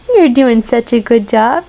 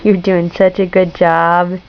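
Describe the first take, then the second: First: Said in the usual way. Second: Tender praise. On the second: Real, not acted. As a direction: praise gently and slowly. Low slow praise.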